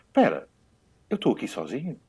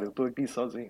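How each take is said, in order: First: It is said with excited, delighted surprise. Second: It is said sadly, as if crying.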